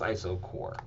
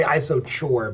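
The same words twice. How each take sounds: First: Isochore said with a hard k, like "iso-core"; correct hard K. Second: Isochore said with a "ch" as in chore; mispronounced with CH. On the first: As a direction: say isochore properly, ending like "core". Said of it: "it's pronounced isochore". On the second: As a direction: isochore with a tch sound in the last syllable. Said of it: "I know you wanna say". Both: Shown as a demonstration.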